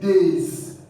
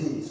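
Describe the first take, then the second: First: The word ends with a buzzing Z sound. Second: The word ends with a hissing S sound. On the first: The speaker calls it right. "We say days" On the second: The speaker calls it wrong. "We don't say this"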